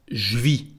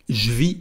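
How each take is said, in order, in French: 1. La voyelle de je tombe, elle est contractée. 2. La voyelle de je tombe, elle est contractée.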